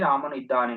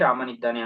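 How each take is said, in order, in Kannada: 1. ಎರಡು ಪದಗಳನ್ನು ಪ್ರತ್ಯೇಕವಾಗಿ ಉಚ್ಚರಿಸಲಾಗುತ್ತದೆ, ಸ್ವರ ಉಳಿಯುತ್ತದೆ. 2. ಎರಡು ಪದಗಳು ಸೇರಿ, ಅವುಗಳ ನಡುವಿನ ಸ್ವರ ಬಿಟ್ಟುಹೋಗುತ್ತದೆ. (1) "ಸಂಹಿತ ಇಲ್ಲ ಅಂದ್ರೆ" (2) "ಸಂಹಿತ ಇದ್ರೆ ಅಲ್ಲಿ ಲೋಪಸಂಧಿಯಾಗಿ"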